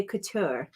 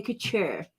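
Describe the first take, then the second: First: "couture" with a clean t, no ch; other people's pronunciation. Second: "couture" with ch in place of t. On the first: Crafter shows how some people say "couture", with a t. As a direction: say "couture" as coo-TOOR. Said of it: "Some people say couture". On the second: Crafter shows her own "couture", with a ch. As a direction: say "couture" as coo-CHOOR. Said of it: "I like that little ch in it". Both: Shown as a demonstration.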